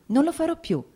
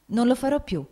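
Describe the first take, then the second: First: Much higher repeat, tears breaking through; mother repeats her promise in tears; rising tearful promise. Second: First tearful promise. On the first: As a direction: climb higher on the repeat, near sobbing. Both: A narrator's reading. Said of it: "inghiottendo le lacrime".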